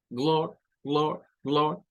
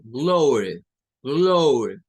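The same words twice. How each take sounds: First: "glor" with a clipped vowel cut off short; glottal stop O. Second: "glory" with an open o, said louder. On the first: Teacher showing the glottal O in "glor". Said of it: "como cortar aquí la O". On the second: Teacher showing the second way to say "glory". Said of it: "puede sonar como O". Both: Shown as a demonstration.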